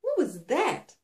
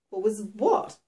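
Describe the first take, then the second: First: Higher, mildly alarmed demand; startled question. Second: Mildly puzzled, innocent question. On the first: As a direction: ask it as if just knocked back. Shaken heroine demands an explanation. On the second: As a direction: play it innocent, as if nothing happened. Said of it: "He sounded completely innocent". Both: A narrator's reading.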